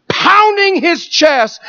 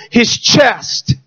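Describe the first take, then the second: First: Slow, high stress on pounding; emphatic repeat. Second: Said in the usual way. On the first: Real, not acted. Preacher repeating to the congregation, slow stress on pounding. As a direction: lean hard into pounding, drawn out.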